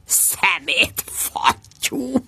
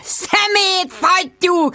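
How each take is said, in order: First: Muttered curse. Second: High, very slow drawn-out yell; high, slow bellowed Szemét fattyú; bellowing. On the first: Muttering after the intercom. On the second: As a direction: stretch out the insult as a yell. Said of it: "ordította Jude". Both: Acted.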